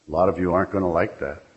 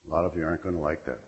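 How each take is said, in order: First: Said in the usual way. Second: Softer, faster, under the breath; quieter repeat. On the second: Real, not acted. Speaker warns the AA room, repeating it quietly and quickly. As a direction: let the repeat drop to a fast aside.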